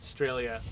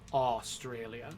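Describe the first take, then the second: First: The first syllable is a weak schwa. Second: Every syllable is pronounced fully and carefully. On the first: This is how most people say it. "the first syllable is a schwa" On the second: This is a very careful pronunciation. "trying to pronounce every syllable very carefully"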